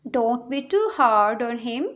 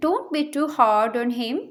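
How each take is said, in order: First: Slower, careful repeat; slow it down for the class; careful slow teacher repeat. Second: Said in the usual way. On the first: Shown as a demonstration. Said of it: "teacher repeats sentence slowly". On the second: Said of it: "teacher models sentence, then repeats".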